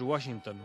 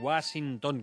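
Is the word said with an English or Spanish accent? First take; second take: English; Spanish. First: It is said with an English accent. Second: It is said with a Spanish accent. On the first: The speaker calls it right. "Lo que suena en inglés más o menos es" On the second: The speaker calls it wrong. "que solemos decir"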